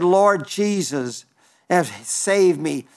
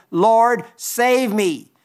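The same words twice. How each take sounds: First: Slow, lower, pleading prayer; slow hushed plea for rescue. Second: Peter crying out as he sinks, raised but not screamed; mild cry for help. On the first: Peter retold, pleading as he sinks. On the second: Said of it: "he cried, saying". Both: Acted.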